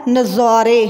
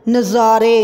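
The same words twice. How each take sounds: The two takes are said the same way.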